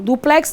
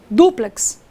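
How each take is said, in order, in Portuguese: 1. A tônica está na última sílaba. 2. A tônica está na primeira sílaba. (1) "Não, duplex não" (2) "paroxítona terminada em X"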